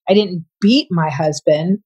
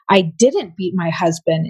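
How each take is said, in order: First: The word beat carries the main stress. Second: The word didn't carries the main stress. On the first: Something other than beating was done. "implied you didn't beat him. You may have done something else" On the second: The act never happened at all. "implied you didn't"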